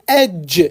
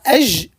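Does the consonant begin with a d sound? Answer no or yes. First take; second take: yes; no. First: The consonant starts with a d sound. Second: The consonant is a soft zh sound. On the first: The speaker calls it right. "mais c'est edge, edge, dj, dj ... glisser un petit son D avant" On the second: The speaker calls it wrong. "c'est pas ej"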